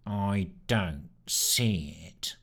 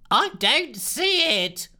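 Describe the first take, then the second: First: Slow, low, flat sneer of a dull rat; a rat-like sneer nobody notices. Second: Much higher, slow, loud wail; fretful scientist wailing. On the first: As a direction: drag it out, a bored little rat. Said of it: "sneered Sneer in his rat-like voice". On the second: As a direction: wail it so nobody can miss it. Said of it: "wailed Lushthorpe". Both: Acted.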